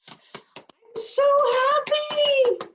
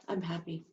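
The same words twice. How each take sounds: First: So happy soared very high and loud, stretched out slowly; overjoyed. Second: Said in the usual way. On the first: Shown as a demonstration. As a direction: sing out the joy on so happy, high and slow. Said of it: "tells somebody the intensity of your feeling". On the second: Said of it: "You need to do that with your face".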